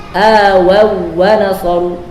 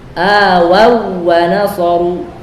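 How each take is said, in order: The two takes are said the same way.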